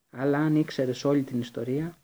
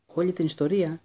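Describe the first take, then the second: First: Said in the usual way. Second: Repeated louder, bitter and angry; angry echo. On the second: A narrator's reading. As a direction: throw the words back in anger. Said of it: "τα αυτιά βούιζαν από το θυμό".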